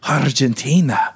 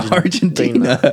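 First: The word is said with a Spanish pronunciation. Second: The word is said with an English pronunciation. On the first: The speaker calls it wrong. "but they're like" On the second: The speaker calls it right. "Just say Argentina"

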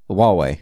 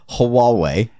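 First: The word starts without an h sound. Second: The word starts with an h sound. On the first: The speaker calls it right. "there's no H. That's how you say it" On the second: The speaker calls it wrong. "not Huawei"

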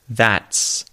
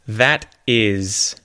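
First: The two words merge into one syllable. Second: Two separate words are said in full. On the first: "followed by that's"

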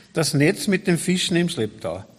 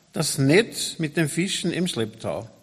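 Both takes have the same delivery.

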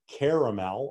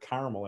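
First: The word is said in a general, non-regional way. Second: The word is said in a South Side way.

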